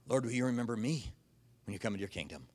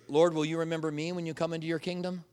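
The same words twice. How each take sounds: First: It is said gasping and out of breath. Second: It is said in a steady, clear voice.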